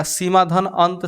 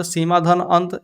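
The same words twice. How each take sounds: First: Slow dictation. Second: Said in the usual way. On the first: Shown as a demonstration. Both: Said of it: "plus मत पढ़िएगा, इसको धन पढ़िएगा".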